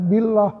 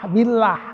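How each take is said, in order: First: The L sound is thick and heavy. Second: The L sound is thin and light. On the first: The speaker calls it wrong. "bukan billah" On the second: The speaker calls it right. "billah kan"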